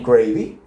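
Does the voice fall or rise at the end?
rise. The pitch rises at the end. It is a polite offer asking if you want some. "how do you ask? Okay"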